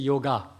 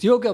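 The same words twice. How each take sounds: First: The word ends in a full ga syllable. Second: The word ends in a clipped g, almost no vowel. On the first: The speaker calls it wrong. "a lot of people in English they say yoga" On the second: The speaker calls it right. "It's yoga, ... that last A is G rather than Ga"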